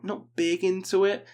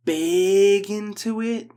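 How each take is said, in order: First: Said in the usual way. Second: Big into it stretched slow and louder, leaning on big; slow, louder big into it with weight on big; drawn out. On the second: Acted. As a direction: drag out big into it, louder, hitting big. Emphatic dismissal of an album.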